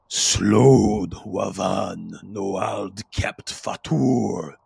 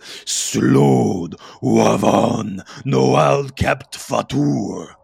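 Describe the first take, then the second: First: It is said more quietly. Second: It is said more loudly.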